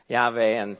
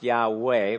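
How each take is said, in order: First: The middle consonant is a V sound. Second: The middle consonant is a W sound. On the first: "normally pronounced with a V sound" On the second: "a lot of times it's pronounced Yahweh"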